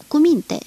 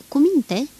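First: Louder firm command, higher; raised louder repeat to the dogs. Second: Firm raised command to calm dogs; loud command, first take. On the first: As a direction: insist firmly the second time. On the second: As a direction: order the dogs to settle. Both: Acted. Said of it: "le poruncea el".

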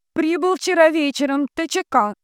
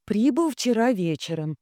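First: Very high, loud relay; high, forceful transmitting voice; entranced telegraph operator. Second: Measured reading at normal volume; steady raised dictating voice; telegram dictation. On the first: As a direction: chant the telegram out to the ether. Dunya repeats as transmitter. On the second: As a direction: dictate the message evenly, pitched up. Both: A narrator's reading.

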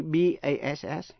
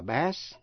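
First: "bass" pronounced "base"; long A, as base. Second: "bass" rhyming with "mass"; short A, the fish. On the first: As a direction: give "bass" an ay vowel. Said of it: "giọng trầm nam". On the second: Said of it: "nếu chỉ tên một thứ cá". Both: Shown as a demonstration.

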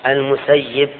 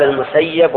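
First: المسيب said al-Musayyib, "i" in the last syllable; name with kasra. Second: المسيب said al-Musayyab, "a" in the last syllable; name with fatha. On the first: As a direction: end المسيب on -yib, active form. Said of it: "ويقال". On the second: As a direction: end المسيب on -yab, passive form. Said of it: "يقال المسيب ويقال". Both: Shown as a demonstration.

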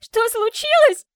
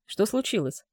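First: High shrill shriek. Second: Said in the usual way. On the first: Acted. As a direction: shriek it back at him. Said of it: "взвизгнула она".

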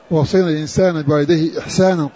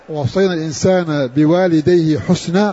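First: إحسانا with a hamza first and long alef after the sin; Kufan reading. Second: حسنا with damma on the ha and silent sin; non-Kufan reading. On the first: Teacher showing students the first of two readings, Kufan إحسانا with long saa. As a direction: read إحسانا as ih-SAA-naa, long middle vowel. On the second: Teacher showing students the second reading, حسنا with u and unvowelled sin. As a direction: read حسنا as HUS-naa, no vowel after s. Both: Shown as a demonstration. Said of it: "فهما قراءتان".

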